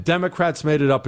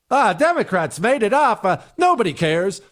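First: Said in the usual way. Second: High, scoffing brush-off of "Democrats"; mocking dismissive quote. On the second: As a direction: sneer it out like a lazy excuse. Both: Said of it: "is a ridiculous answer".

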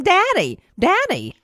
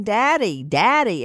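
First: Put-on much higher, little-child voice calling out; imitating a toddler. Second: Said in the usual way. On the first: Host imitating the toddler on the 911 call, high childlike voice. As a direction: mimic the small child calling for her father. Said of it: "You hear the two-year-old going". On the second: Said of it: "you hear her in the background saying".

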